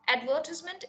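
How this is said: It is said with a British pronunciation. "is the British pronunciation"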